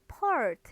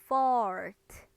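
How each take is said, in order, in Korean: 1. 이 단어는 p 같은 소리로 시작해요. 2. 이 단어는 분명한 f 소리로 시작해요.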